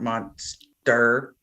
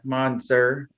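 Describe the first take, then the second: First: The word is said with a T sound. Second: The word is said without a T sound. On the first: The speaker calls it wrong. "not monster" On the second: The speaker calls it right. "monster without the T"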